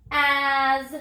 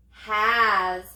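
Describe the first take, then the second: First: "As" stretched after a separate h, ending in buzzed z; sounded out with z. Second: Said in the usual way. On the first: Shown as a demonstration. Teacher repeats the touch and say step, "As" sounded out slowly. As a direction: breathe a lone h, then draw "As" out to z. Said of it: "let's do it again". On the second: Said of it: "What's the word?".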